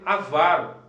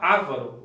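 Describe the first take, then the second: First: The stress is on the second syllable. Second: The stress is on the first syllable. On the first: The speaker calls it right. "o correto é avaro" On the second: The speaker calls it wrong. "o pessoal fala avaro"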